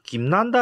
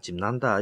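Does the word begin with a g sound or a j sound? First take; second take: g sound; j sound. First: The word begins with a hard g sound. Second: The word begins with a j sound. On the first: This is the form people commonly use. The speaker calls it wrong. "원래 김난다 하던데 김난다가 아니고" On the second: This is the original form. The speaker calls it right. "원래는 짐난다 그럽니다"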